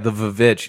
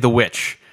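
First: The word starts with a V sound and extra syllable. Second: The word starts with a plain W sound. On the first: The speaker calls it wrong. "There are people out there who are like, oh, yeah, the Vavitch" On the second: The speaker calls it right. "it's pronounced witch. Just say the witch"

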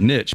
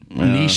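First: The word is said the plain English way. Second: The word is said the French-sounding way. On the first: This is the older, everyday way of saying it. "I used to call it niche" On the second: This is the fancier, current way of saying it. "niche is like the fancy way of saying it now. French"

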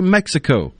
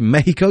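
First: The name is said with an American pronunciation. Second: The name is said with a Spanish pronunciation. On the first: The speaker calls it right. "you say Mexico" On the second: The speaker calls it wrong. "You don't say Mexico"

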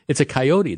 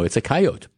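First: Coyote is said the speaker's usual, non-Plains way. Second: Coyote is said the Plains States way.

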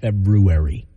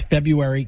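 First: The first r sound is clearly pronounced. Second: The first r sound is left out. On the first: The speaker calls it wrong. "not February" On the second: The speaker calls it right. "that R, in this first R, is silent in February. It's February"

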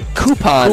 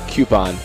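First: The word begins with a 'koo' sound. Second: The word begins with a 'kyoo' sound. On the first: "I don't" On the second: "if you're gonna spell it out like C U E, like Q"

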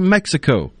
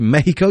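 First: It is said with an American English pronunciation. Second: It is said with a Spanish-style pronunciation. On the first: It uses the speaker's own American pronunciation. The speaker calls it right. "you say" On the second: It copies the local pronunciation of the country. The speaker calls it wrong. "You don't say"

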